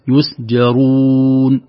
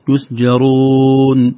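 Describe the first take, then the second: First: The long u vowel is fully rounded. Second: The long u vowel is weakly rounded. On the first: The speaker calls it right. "نقول يسجرون، ودي تحقق الضم" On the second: The speaker calls it wrong. "لا نقول يسجرون"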